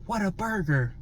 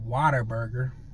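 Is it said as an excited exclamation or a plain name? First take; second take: exclamation; plain name. First: It is said as an excited exclamation. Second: It is said flatly as a plain name. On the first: It expresses amazement at a burger. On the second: It just names the restaurant.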